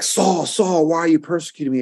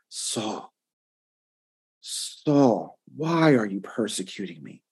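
First: It is said without much emotion. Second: It is said with deep emotion.

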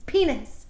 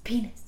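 First: The word is said at the loudest level. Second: The word is said somewhat louder. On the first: "louder and louder" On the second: "louder and louder"

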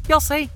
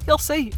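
No difference in how they are said.

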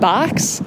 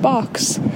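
First: The word is said in a strong Chicago accent. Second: The word is said in a soft general American accent. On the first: "very Chicago" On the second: "kind of like that"

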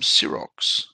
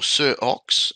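First: The name is run together as one word. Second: The name is said as two separate words. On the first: The speaker calls it wrong. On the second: The speaker calls it right.

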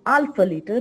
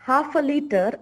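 First: The h at the start is dropped. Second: The h at the start is pronounced. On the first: The speaker calls it wrong. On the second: The speaker calls it right.

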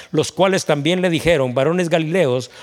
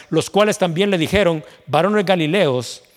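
No difference in how they are said.

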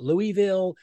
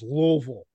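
First: The name is said with several distinct syllables. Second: The name is squeezed into almost one syllable. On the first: The speaker calls it wrong. "No, it's not Louisville" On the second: The speaker calls it right. "It's almost one syllable, really"

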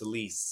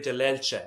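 First: The name is pronounced with English sounds. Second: The name is pronounced with Italian sounds. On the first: "more commonly known as" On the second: "I'm saying it properly the Italian way"

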